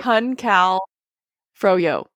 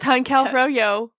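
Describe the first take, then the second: First: The phrase is said slowly, part by part. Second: The phrase is said quickly, run together.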